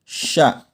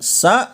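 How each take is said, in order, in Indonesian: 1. Konsonannya bunyi 'sh'. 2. Konsonannya bunyi 's' biasa. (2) "bukan sa"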